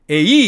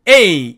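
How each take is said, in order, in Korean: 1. 강세는 두 번째 모음에 있어요. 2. 강세는 첫 번째 모음에 있어요. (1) "에이 이렇게 액센트를 거꾸로 읽으면 더더욱 안 되겠죠" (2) "액센트가 앞에만 있기 때문에 이 부분을 A 이렇게 읽어야 되지"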